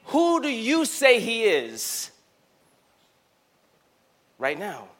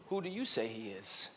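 First: Slow it down, press on "Who"; slow emphatic question. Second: Hushed question. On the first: Preacher pressing the crowd with the question, slow and emphatic. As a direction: lean on "Who", drawn out and firm. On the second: Preacher asking Renaissance the question, hushed and soft. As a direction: drop to almost nothing, much softer, intimate. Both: Acted.

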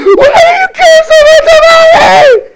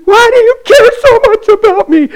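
First: Much higher, louder, slow crying shout; sobbing scream. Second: High, loud, pleading voice; distraught cry. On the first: Girl pressed against the truck screaming at the pastor. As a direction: wail it from the bottom of a broken heart. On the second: Girl crying out to the pastor who prays for her. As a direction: ask it like you can't believe it. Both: Retold or imitated.

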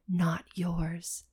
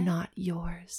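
First: Soft hushed inner voice; whisper. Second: Unvoiced eerie whisper. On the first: A narrator's reading. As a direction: breathe it like a secret warning. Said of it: "a voice that was whispering". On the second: Shown as a demonstration. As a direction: whisper it like a ghost. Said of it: "whisper repeated".

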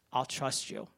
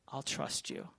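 First: Said in the usual way. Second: A hushed private vow; whispered trust. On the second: Retold or imitated. Man whispers his surrender to God, hushed. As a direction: breathe "I'll trust you" as a soft whisper.

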